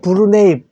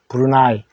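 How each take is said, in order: First: The last syllable sounds like 'nay'. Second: The last syllable sounds like 'nigh'. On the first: This is the English pronunciation. "영어로는 브루네이" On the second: This is the usual Korean reading. "우리는 브루나이라고 읽고 있습니다"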